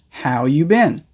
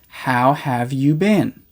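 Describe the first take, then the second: First: The word 'have' is left out entirely. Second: The word 'have' is fully pronounced.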